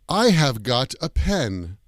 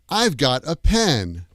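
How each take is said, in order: First: The word have is said in full. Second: Have is contracted to a short v sound. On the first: It sounds British or old-fashioned. "that sounds very British English or very old-fashioned" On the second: It is the usual American form. "we use the contracted form"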